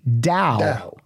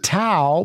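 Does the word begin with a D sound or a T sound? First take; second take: D sound; T sound. First: The word begins with a D sound. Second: The word begins with a T sound. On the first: The speaker calls it right. "it's actually Dao. With the D sound" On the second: The speaker calls it wrong. "I would call it Tao"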